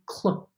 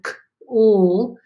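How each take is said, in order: First: The two sounds run smoothly together as one. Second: The two sounds are said apart with a gap. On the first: "You're blending it together. You're just smoothing it out" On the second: "instead of"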